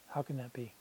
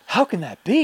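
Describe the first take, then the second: First: It is said flatly, with little disbelief. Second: It is said with exaggerated, infomercial-style disbelief.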